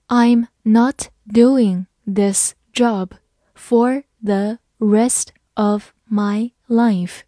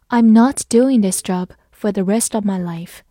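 First: Very slow, word by word; slow read-along. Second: Said in the usual way. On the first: Shown as a demonstration. Teacher leading learners through the sentence, slow and separated. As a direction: read it slowly, a pause after each word. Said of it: "好，慢慢来读". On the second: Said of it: "慢慢来读".

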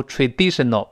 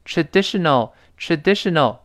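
First: TRADITIONAL with "dee" in the middle; long ee on the stressed syllable of "traditional"; wrong middle vowel. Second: TRADITIONAL with a short, open "di", near "deh"; relaxed short vowel in the stressed syllable of "traditional"; short middle vowel. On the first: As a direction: say "traditional" as "tra-DEE-shnal". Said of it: "不要读traditional". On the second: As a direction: say "traditional" as "truh-DEH-shnal". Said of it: "不是一，是发诶". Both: Shown as a demonstration.

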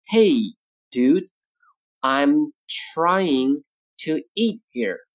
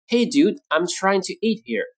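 First: Broken into short phrases with pauses; slow model reading. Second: Said in the usual way. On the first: Shown as a demonstration. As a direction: say it word by word for learners. Model sentence, slow take first.

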